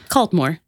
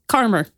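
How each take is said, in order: First: It is said with the L and D sounds. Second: It is said without the L and D sounds. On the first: The speaker calls it wrong. "Caldmore is how I'm reading it" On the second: The speaker calls it right. "apparently it's pronounced Carmer"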